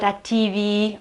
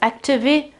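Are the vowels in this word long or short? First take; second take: long; short. First: The vowels are drawn out long. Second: The vowels are said short. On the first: The speaker calls it wrong. "it's not activi" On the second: The speaker calls it right. "the two E sounds are short sounds"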